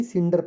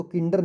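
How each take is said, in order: First: सिंडर with a soft S at the start; सिंडर begins with a clear S sound, not a K. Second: किंडर with a hard K at the start; किंडर spoken as kinder, not with an S; wrong hard C. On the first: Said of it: "सिंडर पढ़ा जाएगा". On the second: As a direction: say किंडर with a K sound, like kit. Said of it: "इसको किंडर नहीं". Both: Shown as a demonstration.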